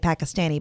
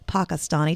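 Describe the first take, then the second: First: It uses the common American pronunciation. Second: It uses the native speakers' pronunciation. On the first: The speaker calls it wrong. "here we say Pakistani" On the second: The speaker calls it right. "the proper pronunciation is Pakistani"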